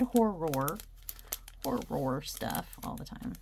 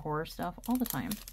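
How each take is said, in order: First: The word horror is pronounced clearly and carefully. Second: The word horror is slurred and unclear. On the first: The speaker calls it right. "I enunciated it for your, you know, reading pleasure" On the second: The speaker calls it wrong. "because I didn't enunciate it"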